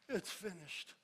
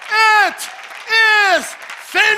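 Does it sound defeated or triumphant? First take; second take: defeated; triumphant. First: It is said weakly, as if defeated. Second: It is said strongly, as a triumphant exclamation.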